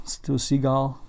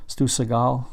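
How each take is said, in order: First: Seagal said see-GAHL, full long ee in the first syllable, stress on the last; another try at the name. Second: Seagal said suh-GAHL, weak first syllable, stress on the last; trying the name. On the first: Unsure of a director's name, testing Seagal as see-GAHL. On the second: Unsure of a director's name, testing Seagal as suh-GAHL. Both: Shown as a demonstration. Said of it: "where you put the emphasis on that last name".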